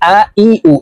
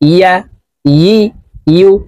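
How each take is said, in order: First: Each syllable starts with a plain vowel. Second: Each syllable starts with a y sound. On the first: The speaker calls it wrong. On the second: The speaker calls it right.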